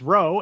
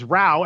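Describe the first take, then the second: First: The vowel sounds like the one in 'go'. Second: The vowel sounds like the one in 'cow'. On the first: Moving a boat with oars. "as in your what you do with your boat" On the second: A noisy quarrel or dispute. "as in a brouhaha"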